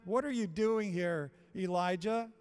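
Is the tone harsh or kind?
harsh. It is said with rebuke and disgust.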